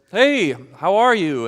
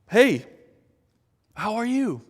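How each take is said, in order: First: Casual greeting. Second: High and cheery greeting; a friendly hello, pitched up; bright greeting. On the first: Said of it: "someone comes up to you and says". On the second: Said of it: "wanted to just be honest". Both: Retold or imitated.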